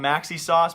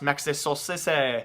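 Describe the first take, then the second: First: The name is said with an English pronunciation. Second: The name is said with a French-style pronunciation. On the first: The speaker calls it wrong. "I'm going to butcher this actual pronunciation here" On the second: The speaker calls it right. "it's probably, you know, pronounced"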